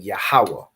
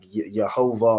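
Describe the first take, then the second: First: The name starts with a 'Yah' sound. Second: The name starts with a 'Yeh' sound. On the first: This is the ancient reading of the name. The speaker calls it right. "So you're saying Yahweh" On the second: This is the later reading of the name. The speaker calls it wrong. "you're not saying like Yehovah"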